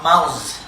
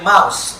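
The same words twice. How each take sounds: First: The word ends with a buzzing z sound. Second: The word ends with a hissing s sound. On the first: The speaker calls it wrong. "not mouse" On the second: The speaker calls it right.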